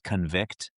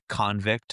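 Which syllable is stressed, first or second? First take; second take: second; first. First: The stress is on the second syllable. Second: The stress is on the first syllable. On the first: It is used as a verb. "versus the last part" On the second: It is used as a noun. "as a noun, you have the emphasis is on like the the the first part"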